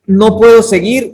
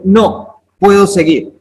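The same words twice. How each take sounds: First: Said in the usual way. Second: "No" set apart, then "puedo seguir" falling; pause after NO. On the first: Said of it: "es una persona que está derrotada". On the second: Shown as a demonstration. Teacher reading the slide with its comma, pause after "No". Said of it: "una coma puede hacer una gran diferencia".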